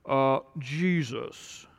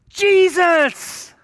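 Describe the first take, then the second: First: It is said in a meek, pious voice. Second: It is said with loud passion.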